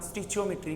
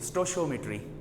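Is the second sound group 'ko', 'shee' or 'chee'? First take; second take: chee; shee. First: It starts 'sti-chee' with a ch sound. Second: It starts 'sto-shee' with a sh sound. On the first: "तीसरा तरीका" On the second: "ਆਪਾਂ ਇਹਨਾਂ ਨੂੰ ਕਹਿੰਦੇ जे"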